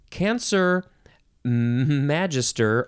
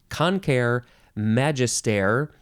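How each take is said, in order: First: The first word begins with a 'can' sound. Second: The first word begins with a 'con' sound. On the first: "that's maybe the American way to say it" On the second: "The Latin way could be"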